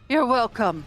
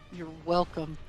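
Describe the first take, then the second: First: It is said in Vanis's put-on character voice. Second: It is said in the speaker's normal voice.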